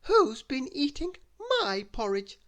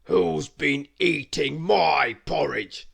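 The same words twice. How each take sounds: First: Higher mother bear voice; medium bear voice. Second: Loud, slow demanding bear; loud, slow gruff question; gruff big bear voice. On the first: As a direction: ask it in a higher, lighter bear voice. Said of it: "asked the medium voice". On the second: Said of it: "a loud, gruff voice". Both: A narrator's reading.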